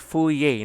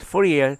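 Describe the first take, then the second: First: The name ends without a sounded R. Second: The name ends with a sounded R. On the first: "but in French, Fourier ... they silent R" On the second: "we read it Fourier"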